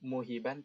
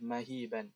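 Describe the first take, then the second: First: The first vowel is a 'u' sound. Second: The first vowel is an 'a' sound. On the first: The speaker calls it wrong. "Ini bukan muhiban" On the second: The speaker calls it right. "tapi yang benar adalah mahiban"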